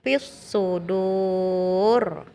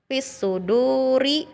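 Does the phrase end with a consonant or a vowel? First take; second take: consonant; vowel. First: The phrase ends with a final consonant sound. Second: The phrase ends with a final vowel sound. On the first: The reading stops at the end of the verse. "dibaca menjadi fis sudur" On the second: The reading continues without stopping. "huruf hidup ri"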